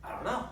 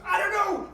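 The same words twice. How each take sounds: First: Said in the usual way. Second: High, loud frantic cry; panicked boy. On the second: Acted. Billy answering the adamant preacher, panicked. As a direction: blurt it out as a cornered little boy.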